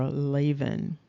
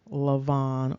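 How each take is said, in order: First: Lavan said as LAY-vun; alternative pronunciation. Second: Lavan said as luh-VAHN; first variant pronunciation. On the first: Teaching the other way to say the name, alternative pronunciation. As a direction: stress the first syllable of Lavan, with a long A. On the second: Teaching how the Hebrew name can sound, first variant. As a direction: stress the second syllable of Lavan, with an AH. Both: Shown as a demonstration. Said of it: "be pronounced".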